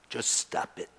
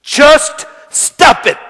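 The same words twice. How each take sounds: First: Hushed, barely voiced command; quietly firm. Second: Loud, drawn-out, word by word; forceful command. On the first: Preacher offering the only words to say, quietly firm. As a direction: say it softly and low-key. Introduces the one phrase to say. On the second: Preacher hammering home the only words to say, forceful. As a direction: punch each word hard and slowly. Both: Shown as a demonstration.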